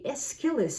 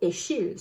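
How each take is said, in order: First: The name is said with English pronunciation. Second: The name is said with French pronunciation. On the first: "whether we use the English or the French pronunciation" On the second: "whether we use the English or the French pronunciation"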